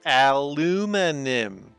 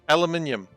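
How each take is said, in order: First: It is said in an American accent. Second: It is said in a British accent.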